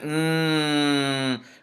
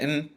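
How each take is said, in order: First: The n is hidden and held in the nose. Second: The n is fully and clearly pronounced. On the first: The speaker calls it right. "We're going to nasalize it and we're going to hold it in our nose a little bit. And we're going to say" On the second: The speaker calls it wrong. "We're not going to say"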